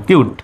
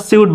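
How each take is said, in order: First: কিউট with C like the Bengali ক; hard C. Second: Wrong reading সিউট, C as in "see"; সিউট opening on "syu", not "kyu"; mispronounced with soft C. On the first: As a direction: say কিউট with a k sound at the start. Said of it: "সির উচ্চারণ কর মতো". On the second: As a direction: say সিউট with an s sound at the start. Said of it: "সিউট বলা যাবে না". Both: Shown as a demonstration.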